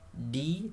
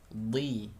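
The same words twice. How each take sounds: First: The consonant sounds light, like a plain d. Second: The consonant sounds thick and heavy, like dhad. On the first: The speaker calls it wrong. "jangan sampai tertukar seakan-akan nanti menjadi huruf dal" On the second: The speaker calls it right. "tapi tebalkan huruf dhad"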